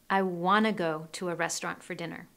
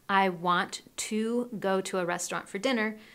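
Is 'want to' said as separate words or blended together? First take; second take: blended; separate. First: 'Want to' is blended into one word. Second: 'Want to' is said as two separate words. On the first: "we blend the sounds between want and to, and we say wanna" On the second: "Instead of saying I want to"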